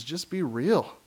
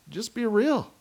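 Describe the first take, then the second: First: Said in the usual way. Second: Real said much higher; higher emphasis. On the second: Shown as a demonstration. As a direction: lift real up high.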